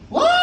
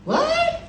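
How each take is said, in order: First: It is said at a louder volume. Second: It is said at a softer volume.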